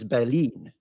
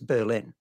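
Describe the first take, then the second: First: Berlin is pronounced with a German accent. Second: Berlin is pronounced with an English accent. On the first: This is how the word is said in German. "in German, it is Berlin" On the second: This is how the word is said in English. "In English, it is Berlin"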